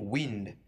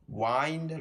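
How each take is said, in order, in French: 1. La voyelle se prononce comme dans 'tin'. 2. La voyelle se prononce comme dans 'find'. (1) "il se prononce comme wind quand il veut signifier le vent" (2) "Il se prononce comme wind lorsque il veut dire enrouler quelque chose"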